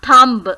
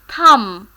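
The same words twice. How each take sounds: First: The final B is pronounced. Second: The final B is not pronounced. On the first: The speaker calls it wrong. "It is not thumb" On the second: The speaker calls it right. "So B is silent"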